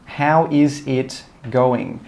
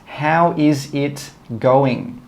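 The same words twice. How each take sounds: Both takes have the same delivery.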